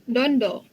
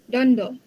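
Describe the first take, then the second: Both takes have the same delivery.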